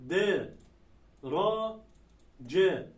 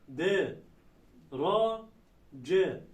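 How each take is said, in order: No difference in how they are said.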